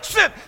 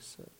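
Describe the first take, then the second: First: It is said loudly. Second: It is said softly.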